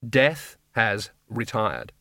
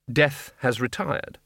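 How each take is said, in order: First: Very slow, word-by-word pronouncement; deliberate repetition. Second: Slow, measured pronouncement; solemn announcement. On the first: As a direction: repeat it with a gap after each word. Message repeated after pardon. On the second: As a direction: announce it slowly and impassively. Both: A narrator's reading.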